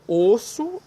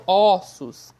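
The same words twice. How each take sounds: First: "osso" with a rounded, closed "oh". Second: "ossos" loud, with an open "aw". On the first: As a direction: stretch the closed first vowel of "osso". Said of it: "osso é fechado". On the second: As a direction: open up the first vowel of "ossos". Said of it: "ó é aberto". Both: Shown as a demonstration.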